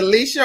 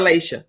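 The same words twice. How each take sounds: First: "Leisha" with a long ee, LEE-sha; first pronunciation option. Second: "Leisha" with an ay sound, LAY-sha; second pronunciation option. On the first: Host checks the guest's wife's name, "Leisha" said LEE-sha. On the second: Host offers the other way to say the name, "Leisha" said LAY-sha. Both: Shown as a demonstration. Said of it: "is it Leisha or Leisha".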